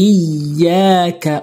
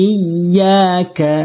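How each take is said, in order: No difference in how they are said.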